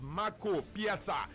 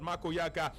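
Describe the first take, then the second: First: The surname begins with a 'p' sound. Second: The surname begins with a 'y' sound. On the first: The speaker calls it right. "It is" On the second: The speaker calls it wrong. "It is not"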